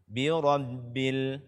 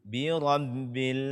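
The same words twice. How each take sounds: The two takes are said the same way.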